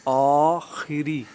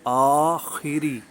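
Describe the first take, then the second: The two takes are said the same way.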